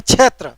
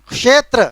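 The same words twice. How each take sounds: First: क्षेत्र said "chhetra", with a chh sound; colloquial pronunciation. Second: क्षेत्र said "kshetra", with k plus sh; correct pronunciation. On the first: Teacher showing what people really say, colloquial chh in क्षेत्र. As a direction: turn the ksh of क्षेत्र into chh. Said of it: "बोलता है क्षेत्र". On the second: Teacher showing what nobody says, proper k-sh in क्षेत्र. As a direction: open क्षेत्र on a careful ksh. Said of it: "कौन क्षेत्र बोलता है". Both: Shown as a demonstration.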